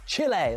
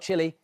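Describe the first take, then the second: First: It is said with a Spanish-style pronunciation. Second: It is said with an English-style pronunciation. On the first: The speaker calls it right. "that's how you say it" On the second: The speaker calls it wrong. "not Chile"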